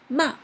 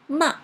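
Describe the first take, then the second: Both takes have the same delivery.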